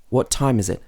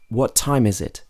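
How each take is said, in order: The two takes are said the same way.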